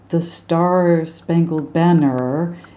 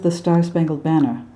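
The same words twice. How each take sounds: First: The R sounds are heavy and drawn out. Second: The R sounds are light and brief. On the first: The speaker calls it wrong. "It's not the" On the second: The speaker calls it right. "It's just"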